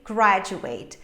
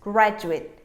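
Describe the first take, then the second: First: The final syllable is said fully, like 'ate'. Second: The final syllable is weak and reduced. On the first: The word is used as a verb. "in this case, I'm going to say graduate" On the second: The word is used as a noun or adjective. "Very reduced"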